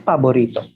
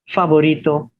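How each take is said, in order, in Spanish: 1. La palabra empieza con sonido P. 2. La palabra empieza con sonido F.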